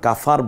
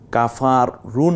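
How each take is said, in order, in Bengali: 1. শব্দের শেষটা একটা ব্যঞ্জনে কেটে ছোট করে উচ্চারিত হয়। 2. শব্দের শেষে একটা স্বরবর্ণ যোগ হয়। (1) "আমরা কাফার বলবো" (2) "কাফার রু না বলে"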